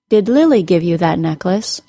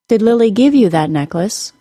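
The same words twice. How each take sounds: First: The word Lily carries the high pitch. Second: The word give carries the high pitch. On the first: The question is about who gave the necklace. "Because I gave the word Lily the high pitch in the question" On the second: The question is about whether it was a gift. "I'm going to stress the word give"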